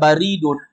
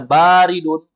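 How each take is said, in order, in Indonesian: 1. Vokal pertama itu pendek. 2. Vokal pertama itu panjang. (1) "baridun itu artinya pos" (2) "artinya dingin"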